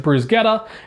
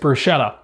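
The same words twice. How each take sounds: First: The word is said with a Sicilian pronunciation. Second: The word is said with an American pronunciation. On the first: "if you are Sicilian is bruschetta" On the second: "if you're from America, it's bruschetta"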